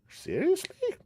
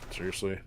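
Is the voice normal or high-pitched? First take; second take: high-pitched; normal. First: It is said high-pitched like Hakan. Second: It is said in a normal voice.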